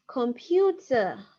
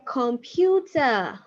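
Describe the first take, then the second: First: "Computer." repeated slowly, falling. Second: "Computer" said slowly, falling; slow model word. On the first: Teacher repeating "Computer." slowly for the class. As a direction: say "Computer." slowly once more. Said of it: "How do you say computer?". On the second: Teacher slowly modelling "Computer" for learners. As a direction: draw out "Computer" for the students. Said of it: "You can say". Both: Shown as a demonstration.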